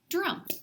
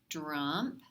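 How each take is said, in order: First: The word is said quickly as one unit. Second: The word is stretched out slowly. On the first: "fast like a word" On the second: "Say it slowly"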